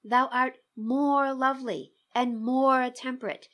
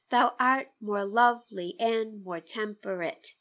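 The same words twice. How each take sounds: First: "Thou art more lovely and more temperate" with both "more" words punched and held, breaking the beat; dramatic stress on more. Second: "Thou art more lovely and more temperate" in an even da-DUM beat, no word singled out; strict iambic reading. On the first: Teacher showing how the drama breaks the meter, stress on more. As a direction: lean hard into each "more" to show excess. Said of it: "the drama of the line suggests that it should be read".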